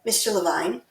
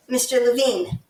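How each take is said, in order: First: "Levine" said as luh-VINE; corrected name. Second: "Levine" said as luh-VEEN; mispronounced name. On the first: Host corrects the councilman's name, saying "Levine" as luh-VINE. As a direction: end "Levine" to rhyme with "vine". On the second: Host misnames the councilman, saying "Levine" as luh-VEEN. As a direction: end "Levine" with a long ee, like "veen". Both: Real, not acted. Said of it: "pardon me, Levine".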